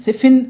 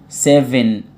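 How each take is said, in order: First: The middle consonant sounds like a voiceless f. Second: The middle consonant sounds like a voiced v. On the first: The speaker calls it wrong. "اقول له لا غلط" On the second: The speaker calls it right. "الفي صوتها seven"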